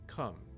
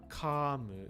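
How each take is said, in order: First: It has a short, flat, neutral schwa vowel. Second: It has a full vowel and an added final vowel. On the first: The speaker calls it right. "it's kum" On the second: The speaker calls it wrong. "it's not kamu"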